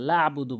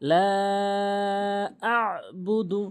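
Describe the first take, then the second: First: "লা আবুদু" rushed with a short laa; unstretched mistake. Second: "লা আ'বুদু" with laa held very long; long elongation. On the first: Retold or imitated. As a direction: say "লা আবুদু" without holding the laa or sounding the ayn. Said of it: "টেনে পড়ে না". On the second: Shown as a demonstration. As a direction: stretch "লা", then press the ayn in "আ'বুদু". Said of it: "অবশ্যই তিন আলিফ টেনে".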